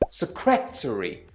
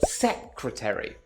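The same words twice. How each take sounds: First: The stress is on the second syllable. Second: The stress is on the first syllable. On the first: The speaker calls it wrong. "Bruce has stressed the second syllable" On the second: The speaker calls it right. "The stress should be on the first syllable"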